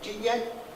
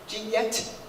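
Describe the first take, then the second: First: The T in the first word is not released. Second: The T in the first word is audibly released. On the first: The speaker calls it right. "that T doesn't get exploded" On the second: The speaker calls it wrong.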